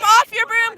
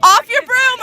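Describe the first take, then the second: First: Said in the usual way. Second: Sharp shout; shouted call. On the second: Real, not acted. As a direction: yell it at the player. Referee call to player.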